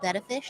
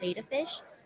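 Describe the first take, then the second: First: The first vowel sounds like 'bet'. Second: The first vowel sounds like 'bay'. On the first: The speaker calls it right. "It's actually pronounced betta fish" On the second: The speaker calls it wrong. "not beta fish"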